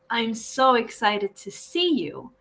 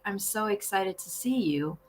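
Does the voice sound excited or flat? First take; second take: excited; flat. First: It is said with lively excitement. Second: It is said flatly, with little excitement.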